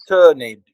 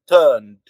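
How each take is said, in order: First: The ending is said as an extra syllable. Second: The ending is one short final consonant sound. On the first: The speaker calls it wrong. "you don't say turned" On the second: The speaker calls it right. "You say turned"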